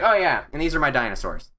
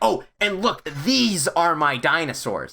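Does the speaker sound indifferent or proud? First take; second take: indifferent; proud. First: It sounds indifferent and offhand. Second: It sounds proud and eager.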